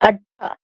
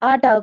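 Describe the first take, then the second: First: The middle consonant is doubled and held. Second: The middle consonant is short and single. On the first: This is how Marathi and Punjabi speakers say it. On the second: This is the usual way to say it.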